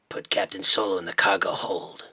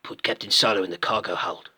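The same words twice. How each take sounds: First: Low, menacing film-villain line; lower, terse bounty hunter voice; original Boba Fett. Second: Bounty hunter with a put-on New Zealand accent; rough go at a New Zealand accent; New Zealand-accented villain, slightly lower voice; Boba Fett, New Zealand accent. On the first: Acted. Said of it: "I prefer the original". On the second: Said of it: "his accent probably would have changed".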